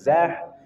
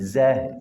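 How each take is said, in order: First: The sound comes from higher in the throat. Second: The sound comes from deep in the throat. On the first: The speaker calls it wrong. "Bukan zah" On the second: The speaker calls it right. "tapi zah"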